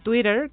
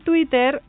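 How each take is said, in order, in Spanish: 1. La palabra suena a inglés. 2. La palabra suena a español.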